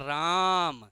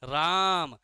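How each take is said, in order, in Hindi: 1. स्वर पर ज़ोर दिया गया है और उसे लंबा खींचा गया है। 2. स्वर पर ज़ोर दिया गया है और उसे लंबा खींचा गया है।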